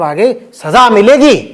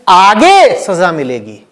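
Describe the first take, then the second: First: The stress falls on the word सजा. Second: The stress falls on the word आगे. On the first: Punishment is certain to come. "तुमने अपनी ओर से किस शब्द पे जोर डाला है? सजा पे।" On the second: The punishment will not come now, only later. "पापी ने किस शब्द पे जोर डाल दिया? तो बोल रहा आगे देखा जाएगा"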